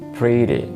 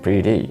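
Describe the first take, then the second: First: The stress is on the first syllable. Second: The stress is on the second syllable. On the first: The speaker calls it right. "the stress is usually on the first syllable" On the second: The speaker calls it wrong.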